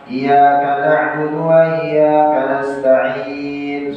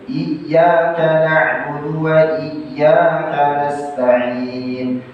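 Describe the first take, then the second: First: The y sound in iyyaka is single. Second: The y sound in iyyaka is doubled. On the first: The speaker calls it wrong. "sudah berubah maknanya" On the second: The speaker calls it right. "Harus tasydid"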